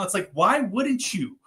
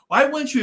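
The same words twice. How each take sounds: First: Said in the usual way. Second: "Why" punched higher and louder; insistent "Why wouldn't you?"; emphatic repeat. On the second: Shown as a demonstration. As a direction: hit "Why" hard, as if the answer is obvious.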